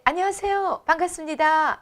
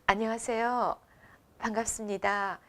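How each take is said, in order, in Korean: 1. 이 인사는 음을 높여서 밝게 합니다. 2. 이 인사는 약간 느리고 음이 낮습니다. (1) "제가 밝게 했을 때 ... 이 톤이 올라갔죠" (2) "약간 느리고 어, 내 수준에서 저음으로"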